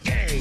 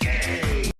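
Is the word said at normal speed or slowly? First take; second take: normal; slowly. First: The word is said at normal speed. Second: The word is drawn out very slowly.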